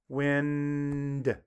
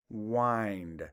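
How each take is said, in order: First: The vowel is a short i sound. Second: The vowel is a long i sound. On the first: Moving air, as in the wind held the kite. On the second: To turn or tighten, as in winding clocks.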